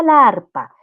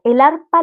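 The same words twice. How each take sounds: First: "la arpa" con "la" alargado; artículo erróneo marcado. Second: "el arpa" marcado y fuerte; artículo contrastado. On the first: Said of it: "no es la arpa". ("la arpa" con la a alargada y marcada) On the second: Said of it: "su artículo no termina con A". ("el arpa" con énfasis de contraste) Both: Shown as a demonstration.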